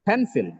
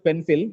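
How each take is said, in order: First: The first syllable is louder and longer. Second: The first syllable has no extra stress. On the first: The speaker calls it right. "pen with extra breath force, louder, and lo- little longer" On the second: The speaker calls it wrong. "The pronunciation of this word is not just pencil"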